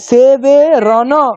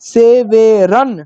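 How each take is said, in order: First: The final n is followed by a short vowel. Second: The word ends on a bare n sound. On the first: The speaker calls it wrong. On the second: The speaker calls it right.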